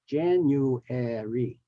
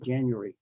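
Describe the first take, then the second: First: All four syllables are carefully pronounced. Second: The word is squeezed into fewer syllables. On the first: This is the careful, formal form. "The actual correct uh, pronunciation has four syllables" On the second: This is the everyday relaxed form. "in casual speech, we just say"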